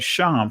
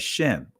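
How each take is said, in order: First: The vowel sounds like the a in father. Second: The vowel sounds like the e in bed. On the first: This is the ancient Hebraic pronunciation. "Sham from an ancient Hebraic perspective. That's how you pronounce the word" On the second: This is the modern Israeli pronunciation. "In the Israeli language, they refer to this word, they pronounce it as Shem"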